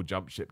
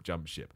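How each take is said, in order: First: A muttered mock panic, much softer; mocking doom-sayers. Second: Softer still, a fading mock lament; mocking doom-sayers. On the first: Mocking fans who panic about wrestlers jumping ship, muttered softly. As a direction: parody the fans crying jump ship under your breath. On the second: Mocking the panicked fans again, fading to a mutter. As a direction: let the second jump ship die away in parody. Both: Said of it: "doing this whole blanket".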